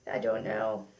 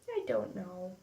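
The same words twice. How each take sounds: First: Much lower, playful I don't know; goofy low voice. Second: Soft trailing repeat; much softer, under her breath; quiet. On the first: Pretend. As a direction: drop into a silly low voice. Goofy aside, forgot product name. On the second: Real, not acted. Repeats it softly after goofy take.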